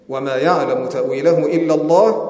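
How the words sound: The recitation stops fully after the word Allah. Only God knows its true reality. "وقف، ثم بعد ذلك ابتداء"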